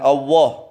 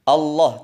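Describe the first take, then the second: First: The L is dark, with the tongue curled back. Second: The L is clear, tongue tip behind upper teeth. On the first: The speaker calls it wrong. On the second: The speaker calls it right. "ujung lidah ditempelkan di belakangnya pangkal gigi atas"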